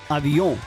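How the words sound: It is said with a French nasal ending. "the French says say"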